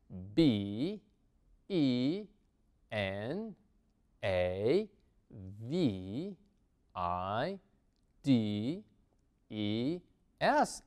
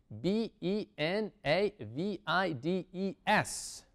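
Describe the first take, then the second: First: The letters are spelled at a slow pace. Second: The letters are spelled at a fast pace.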